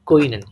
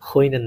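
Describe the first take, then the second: First: The word begins with a k sound, lips rounded. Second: The word begins with an h sound. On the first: The speaker calls it right. "Just মুখটা একটু বেশি গোল করবেন" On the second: The speaker calls it wrong. "একদম হ উচ্চারণ না"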